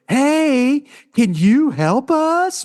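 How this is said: It is said in a mocking, sarcastic tone. The request is twisted into mockery. "it's a sarcasm"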